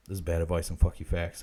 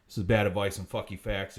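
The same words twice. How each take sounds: First: Much lower, deep announcer tagline; deep deadpan tagline; catchphrase. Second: Low, steady show tagline; deadpan catchphrase. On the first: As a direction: read it like the show's title card. Show catchphrase repeated. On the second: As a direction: announce the show's name. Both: Acted.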